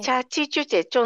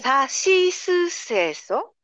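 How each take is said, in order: First: The syllables begin with a ch sound. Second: The syllables begin with a clear s sound. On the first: The speaker calls it wrong. "ちょっと幼児言葉になっている" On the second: The speaker calls it right. "例えば日本語で言うと、"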